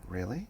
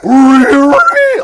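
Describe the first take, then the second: First: It is said in a plain voice. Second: It is said in an enthusiastic Scooby-Doo voice.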